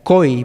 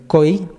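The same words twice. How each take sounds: First: Koi with a plain front k, slowly. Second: Koi from the throat, its special flavour; koi with Quechua q. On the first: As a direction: koi as spelt with K de kilo. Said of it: "si yo dijera koi". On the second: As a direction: koi with uvular q, pushed. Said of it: "pero si digo koi, así diferente". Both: Shown as a demonstration.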